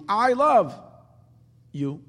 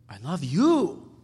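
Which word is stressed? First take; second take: I; you. First: The stress is on I. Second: The stress is on you.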